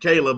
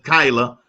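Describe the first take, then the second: First: The first syllable sounds like 'kay'. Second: The first syllable sounds like 'kai'. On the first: The speaker calls it wrong. "I'm so used to saying Kayla" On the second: The speaker calls it right. "but it's Kyla"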